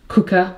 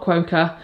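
First: The word begins with a plain k sound. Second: The word begins with a kw sound. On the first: The speaker calls it right. "it is cooker" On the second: The speaker calls it wrong. "it's not quoker"

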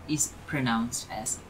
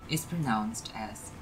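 The two takes are said the same way.

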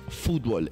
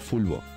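First: The word has a T and ends in L. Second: The word ends in a vowel, without a T. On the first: The speaker calls it wrong. "No es fútbol" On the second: The speaker calls it right. "es fulbo"

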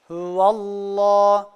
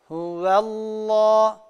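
First: The opening 'hu' sound is thick and heavy. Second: The opening 'hu' sound is thin and light. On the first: The speaker calls it wrong. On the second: The speaker calls it right.

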